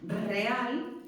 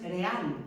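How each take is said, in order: First: "Real" with a strongly trilled initial R; "Real" opened on a multiple, vibrating R. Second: Just flick the first R of "real" once, no trill; "real" mispronounced with a weak tapped R; weak R, wrong take. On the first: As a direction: roll the R hard at the start of "Real". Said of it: "aunque suena fuerte". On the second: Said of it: "no es real". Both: Shown as a demonstration.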